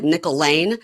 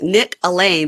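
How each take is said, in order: First: "Nickel Lane" said like a coin and a street; run-together name. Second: "Nick Alain" split as first name and surname; pronounced as two names. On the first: Showing how his name sounds, run together as "Nickel Lane". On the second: Explaining his real name, "Nick Alain" said as two names. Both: Shown as a demonstration. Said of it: "but it just sounds like Nickel Lane".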